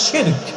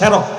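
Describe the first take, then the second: First: It is said as shirk with a sh sound. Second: It is said as se-rok with an s sound. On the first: The speaker calls it right. "শব্দটা হচ্ছে শিরক" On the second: The speaker calls it wrong. "আবার কেউ শুনি কয় সেরক"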